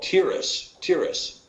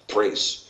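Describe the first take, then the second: First: The name begins with a plain T sound. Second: The name begins with a TH sound. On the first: The speaker calls it wrong. "is called Tiras in the KJV" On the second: The speaker calls it right. "better pronounced Thrace, because of the Tav having a TH sound rather than a Ta sound"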